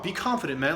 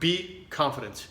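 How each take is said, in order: First: It sounds encouraging and high-energy. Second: It sounds critical and disapproving.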